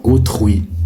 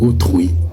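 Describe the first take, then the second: No difference in how they are said.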